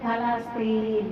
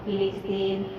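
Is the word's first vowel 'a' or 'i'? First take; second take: a; i. First: The word begins with the vowel 'a'. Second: The word begins with the vowel 'i'. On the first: This is the form from religious tradition. The speaker calls it right. "নবীজি বলেছেন ফালাস্তিন" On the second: This is the common everyday form. The speaker calls it wrong. "আমরা বলি ফিলিস্তিন"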